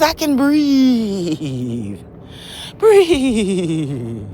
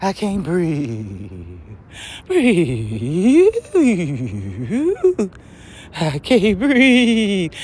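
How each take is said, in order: First: Slow, calm, drawn-out breath affirmation. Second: Slow, strained mock wheeze; mock gasping complaint. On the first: Shown as a demonstration. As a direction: breathe it out slowly and peacefully. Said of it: "Put a new code in that says". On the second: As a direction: drag out the fake struggle for air. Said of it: "make that claim about you can't breathe".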